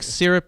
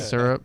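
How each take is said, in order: First: The word is said with a neutral pronunciation. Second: The word is said with a Kansas pronunciation. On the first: This is the way the speaker prefers to say it. "is how I want to say it" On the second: This is how the speaker grew up talking. "my Kansas roots take over and I say"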